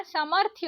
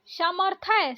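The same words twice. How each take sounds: First: समर्थ्य said samarthya with half th; correct pronunciation. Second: समर्थय said samarthay, ending ay; wrong pronunciation. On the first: Teacher gives the right ending: careful pronunciation. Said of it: "होता है". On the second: Teacher shows the wrong ending: wrong pronunciation. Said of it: "नहीं होता". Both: Shown as a demonstration.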